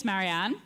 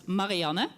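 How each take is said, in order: First: Marianne said the English way; English pronunciation. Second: Marianne said the Dutch way; Dutch pronunciation. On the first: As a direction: say Marianne with flat English a's, ending on the n. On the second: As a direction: say Marianne with an open 'ah' and a final 'uh': ma-ri-AH-nuh. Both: Shown as a demonstration. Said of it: "In the Dutch pronunciation".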